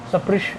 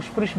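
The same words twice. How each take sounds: First: स्पृश opened with a clear "sa"; preferred pronunciation of स्पृश. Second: स्पृश with no vowel between s and p; common pronunciation of स्पृश. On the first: Teacher modelling the better way, स्पृश as "sa-prish". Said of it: "ऐसे बोलो तो अच्छा है". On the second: Teacher quoting how many people say it, स्पृश as "sprish". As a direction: run स्पृश together as "sprish". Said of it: "कई लोग स्पृश बोलते हैं". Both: Shown as a demonstration.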